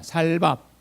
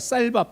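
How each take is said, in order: First: The first s sound is plain and soft. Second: The first s sound is tense and strong. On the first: "여러분 안 되잖아요" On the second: "저는 쌀밥 되는데"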